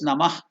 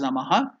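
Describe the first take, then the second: First: The word ends with an h sound, no vowel. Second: The word ends with a final vowel after h. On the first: "Some people pronounce it as Namah" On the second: "Some people pronounce it as Namaha"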